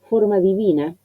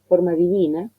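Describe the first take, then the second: No difference in how they are said.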